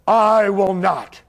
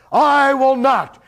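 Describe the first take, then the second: First: Slow, steady refusal. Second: High, louder, slow refusal; emphatic refusal. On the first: Yahshua answering the priests, a slow calm refusal. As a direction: say it slow and firm. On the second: Yahshua refusing the priests again, a high emphatic refusal. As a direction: repeat it with full force. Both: Retold or imitated. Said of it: "And he said".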